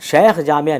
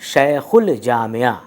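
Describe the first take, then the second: First: No L sound is pronounced before jamia. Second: An L sound is pronounced before jamia. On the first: The speaker calls it wrong. "नहीं पढ़ रहे हैं" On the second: The speaker calls it right. "इसीलिए हम इसको पढ़ रहे हैं"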